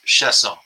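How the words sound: The name is said with French pronunciation. "The French pronunciation is Chiasson"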